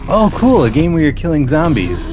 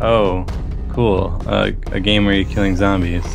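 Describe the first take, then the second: First: The voice sounds genuinely excited and impressed. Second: The voice sounds flat and unimpressed. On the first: Such a game feels new and novel. "at that time in the history of the App Store" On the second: Such games are now commonplace. "as opposed to today"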